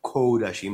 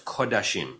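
First: The first vowel is a hard O. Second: The first vowel is a soft O. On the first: The speaker calls it wrong. "Not Kodashim" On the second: The speaker calls it right. "it's a Kamatz Katan or a Chatav Kamatz"

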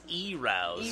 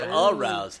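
First: The word begins with an 'ee' sound. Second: The word begins with an 'uh' sound. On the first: The speaker calls it wrong. "he says e-rouse instead of arouse" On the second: The speaker calls it right. "instead of arouse"

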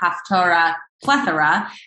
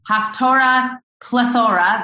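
First: Plethora is said without rhyming with Haftorah. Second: Plethora is said to rhyme with Haftorah. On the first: The speaker calls it wrong. "you would think it would be Haftorah Plethora, but it doesn't sound as nice that way" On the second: The speaker calls it right. "that's how it's supposed to be said"

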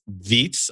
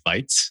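First: The name is said in a non-American way. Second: The name is said the American way.

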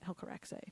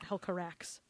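First: The final E is pronounced. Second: The final E is silent. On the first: The speaker calls it right. "you have to say the E" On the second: The speaker calls it wrong. "It's not Hel Carax"

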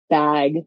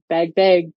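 First: The vowel sounds like the open vowel in 'bag'. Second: The vowel sounds close to the vowel in 'beg'. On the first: The speaker calls it right. "enunciate bag and learn how to say it right" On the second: The speaker calls it wrong. "Like I did it bag"

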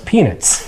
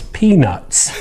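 First: The second syllable sounds like 'nits'. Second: The second syllable sounds like 'nuts'. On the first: The speaker calls it wrong. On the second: The speaker calls it right.

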